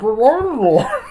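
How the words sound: It is said in a Bane impression voice.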